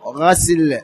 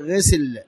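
First: The first consonant is followed by an a vowel. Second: The first consonant is followed by an i vowel. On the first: It names the act of washing or the water used. "بفتح الغين" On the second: It names a cleaning agent added to the water. "بكسر العين"

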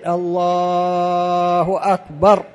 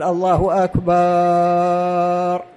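First: The vowel in Allah is stretched, akbar stays short. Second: The vowel in the last syllable of akbar is stretched. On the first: The speaker calls it right. "ما في مشكلة لو تمدها ساعتين" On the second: The speaker calls it wrong. "فلا تقول الله أكبر"

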